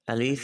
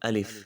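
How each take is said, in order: First: The second vowel is drawn out long. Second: The second vowel is kept short. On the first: The speaker calls it wrong. "अलीफ ये नहीं है" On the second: The speaker calls it right. "अलिफ शॉर्ट थोड़ा पढ़ेंगे इस तरह"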